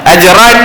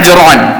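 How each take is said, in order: First: The vowel after the r sounds like a. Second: The vowel after the r sounds like o. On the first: "dia baca ran" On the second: "kita buat ajron ron"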